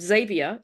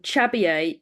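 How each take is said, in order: First: The name is said with an American pronunciation. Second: The name is said with a Spanish pronunciation. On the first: "he gets called Xavier in America" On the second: "he gets called Chabier in Spain"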